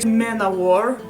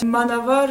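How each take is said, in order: First: It is said the common, usual way. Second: It is said to rhyme with samovar. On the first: This is how most people say it. "that's how everyone pronounces it" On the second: It recalls a Russian word. "I say Manavar because it sounds to a Russian word Samovar"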